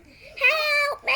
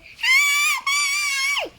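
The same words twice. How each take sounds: First: High, loud crying plea; shouting for help. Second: Shrieking high and loud for help; very loud scream. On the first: Drowning townsperson crying out, high loud plea. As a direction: scream for rescue. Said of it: "this one was shouting". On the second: Last townsperson screaming for help, very loud shriek. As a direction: scream at the top of your lungs. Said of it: "Very loud". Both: Acted.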